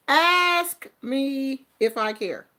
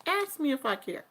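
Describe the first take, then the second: First: Slow, drawn-out dare; slow defiant challenge. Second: Softer, quicker dismissive dare; a quicker, quieter shrug of a dare; defiant. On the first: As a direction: spell it out slowly, daring them. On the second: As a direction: toss it off, not caring. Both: Real, not acted. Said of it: "Do you wanna ask me?".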